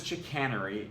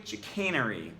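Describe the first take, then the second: First: Said in the usual way. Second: Chicanery said with a changed second vowel; alternative pronunciation. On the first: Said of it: "you thought it was chicanery". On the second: Shown as a demonstration. Commentator reads out the supposedly correct chicanery, alternative pronunciation. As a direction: say chicanery the tricky way. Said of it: "you thought it was chicanery, it's actually chicanery".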